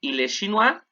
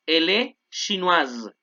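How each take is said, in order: First: "chinois" with a silent final s, "shee-NWAH"; masculine chinois. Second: "chinoise" ends in a buzzing z, "shee-NWAZ"; slow, buzz the z at the end of "chinoise"; feminine with buzzing z. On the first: Teacher repeating the masculine model, "chinois" open. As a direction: end "chinois" open, no consonant. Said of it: "ojo con la pronunciación". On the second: Teacher repeating the feminine, z sound stretched. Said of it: "suena como Z". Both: Shown as a demonstration.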